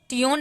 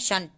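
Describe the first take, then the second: First: It is said letter by letter, 'tee-on'. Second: It is said as one syllable, 'shun'. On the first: The speaker calls it wrong. "टीओन नहीं पढ़ते हैं" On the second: The speaker calls it right. "इसको हम शन पढ़ते हैं"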